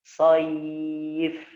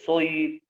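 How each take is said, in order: First: The first vowel is moderately heavy, like a. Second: The first vowel is overly heavy, like o. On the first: The speaker calls it right. "Tetap tebal ya, tapi tidak berlebihan" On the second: The speaker calls it wrong. "Tidak boleh So"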